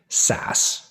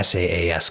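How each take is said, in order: First: It is pronounced as a single word. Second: It is spelled out letter by letter. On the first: The speaker belongs to the community. The speaker calls it right. "we most typically say SaaS. You know, the, take the acronym, pronounce it out" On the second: The speaker is an outsider to the community. The speaker calls it wrong. "simply by spelling out SaaS, you could be mocked for not belonging"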